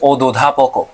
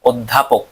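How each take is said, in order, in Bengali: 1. 'd' ধ্বনিটির পরে একটি 'o' স্বরধ্বনি আছে। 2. 'd' ধ্বনিটি আটকানো, এর পরে কোনো স্বরধ্বনি নেই। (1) "এরকম বলছি না" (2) "ওধ বলে আটকে ফেলছি"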